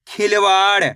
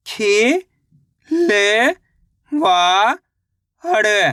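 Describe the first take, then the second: First: Said in the usual way. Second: खिलवाड़ split and drawn out; syllable by syllable. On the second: Shown as a demonstration. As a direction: sound out खिलवाड़ slowly. (अक्षर-अक्षर खींचकर) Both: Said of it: "तो मिलके बन जाएगा".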